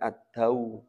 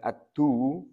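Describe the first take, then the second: First: The d is followed by an a vowel. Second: The d is followed by a u vowel. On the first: The speaker calls it right. "Bacanya ad-daw" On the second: The speaker calls it wrong. "Bukan ad-du"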